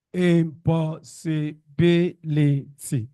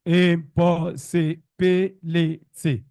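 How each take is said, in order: First: Impossibility slow, with the pitch lifted on "bil"; "impossibility", each syllable spaced out, "bil" raised above the rest; slow teaching demo of "impossibility" with its peak on "bil"; stress on BIL. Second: Impossibility slow, with every syllable on one pitch and no peak; "impossibility" said flat, with no syllable stressed above the others; slow even delivery of "impossibility" with no stressed syllable; level stress. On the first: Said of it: "What do I have? Re, re, re, mi, re, do". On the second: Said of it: "But if you say". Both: Shown as a demonstration.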